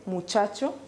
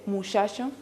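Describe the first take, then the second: First: The middle consonant is a ch sound. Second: The middle consonant is a sh sound. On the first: "el estándar che" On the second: "o puede ser ese"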